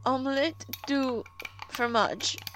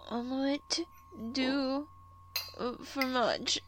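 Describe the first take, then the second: First: The phrase is said at a loud volume. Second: The phrase is said at a quiet volume.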